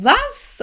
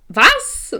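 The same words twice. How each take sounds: First: Very high, loud incredulous squeal; escalated disbelief. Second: Loud, startled "what?"; retold disbelief. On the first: Retold or imitated. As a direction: repeat it far higher in mock shock. Repeated shock, escalated. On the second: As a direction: blurt it out louder, pitch held back. Retold shock at having to pay.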